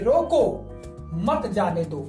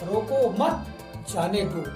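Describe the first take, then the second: First: There is a pause right after 'roko'. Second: There is a pause right after 'mat'. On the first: The person who is leaving must be stopped. "पहले वाक्य में यहाँ पर हम विराम चिन्ह लगा दे" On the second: The person who is leaving should be let go. "दूसरे वाक्य में विराम चिन्ह यहां पर लगा देते हैं"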